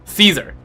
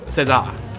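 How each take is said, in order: First: The name is said in Latin style. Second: The name is said in French style. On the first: "I just use a Latin pronunciation" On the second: "the French is César"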